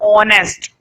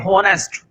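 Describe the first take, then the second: First: The word starts with a vowel, no h. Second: The word starts with an audible h sound. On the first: The speaker calls it right. "H silent होता है" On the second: The speaker calls it wrong. "कुछ लोग मूर्ख होते हैं, वो पढ़ते हैं होनेस्ट"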